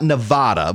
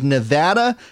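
First: It is said the way outsiders say it. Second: It is said the way local residents say it. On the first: The speaker sounds like an outsider. The speaker calls it wrong. "It's not Nevada" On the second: The speaker sounds like a local. The speaker calls it right. "It is Nevada"

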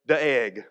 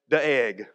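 First: The name is said as two syllables, like dee-egg. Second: The same.

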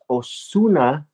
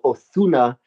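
First: The name is said with Spanish sounds, z as s. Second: The name is said with z lisped like th. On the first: This is the proper way to say it. "it's a Spanish last name, so properly it's Ozuna" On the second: This is how speakers from Spain say it. "they'll even put a lisp on it. They'll go Ozuna if they speak Castellano"

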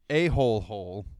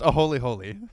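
First: The parts are said like the English word hole. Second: The parts are said like the English word holy. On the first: The speaker calls it wrong. "I know I'm pronouncing this incorrectly" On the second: The speaker calls it right. "It's pronounced"

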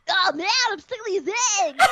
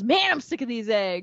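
First: It is said in a Harry Potter voice. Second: It is said in a normal voice.

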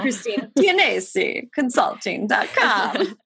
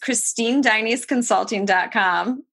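First: The surname is said the Italian way. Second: The surname is said the Americanized way.

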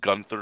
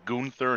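First: The name is said with a plain English pronunciation. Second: The name is said with a foreign pronunciation. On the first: The name sounds ordinary and dull. The speaker calls it wrong. "Gunther is such a boring name" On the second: The name sounds exotic and distinctive. The speaker calls it right. "it's got like a kind of foreign connotation to it, like the accent"

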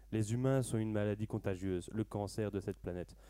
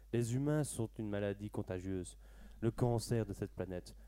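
No difference in how they are said.

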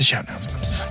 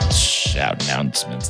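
First: It is said in a normal speaking voice. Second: It is said in a Predator monster voice.

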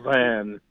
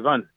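First: The vowel in Van is long. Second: The vowel in Van is short. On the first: The speaker calls it wrong. "they're insulted if you say Van" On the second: The speaker calls it right. "It's a shorter A"

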